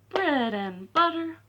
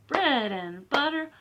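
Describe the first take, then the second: No difference in how they are said.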